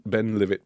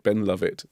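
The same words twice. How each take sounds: First: "Ben Livet" said with an i sound, like Glenlivet; sounding out the whisky pun "Ben Livet". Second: "Ben Lovett" said with an uh sound, like the surname "Luv-it"; the name "Lovett" said as "Luv-it". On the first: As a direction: read "Livet" as "Liv-it". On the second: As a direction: correct it to "Lovett". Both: Shown as a demonstration. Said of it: "but it says Ben".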